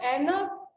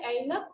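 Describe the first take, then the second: First: ऐनक with a single open "ae" vowel, "AE-nak"; wrong pronunciation. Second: ऐनक opening on a glide, "AI-nak"; correct pronunciation. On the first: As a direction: say ऐनक as "ennak", no glide. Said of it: "ऐनक नहीं होता है". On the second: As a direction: say ऐनक as "a-inak", lower and softer. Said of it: "ऐनक होता है". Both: Shown as a demonstration.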